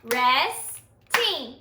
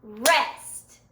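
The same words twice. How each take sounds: First: "Resting" split into two clapped beats, RES and TING; "Resting" said in two even claps; clapped syllables. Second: "Rest" said as a single clapped beat; "Rest" as one short clapped syllable. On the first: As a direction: clap out "Resting" beat by beat. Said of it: "Clap it with me". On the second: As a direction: clap "Rest" once. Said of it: "Clap the word rest with me". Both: Shown as a demonstration.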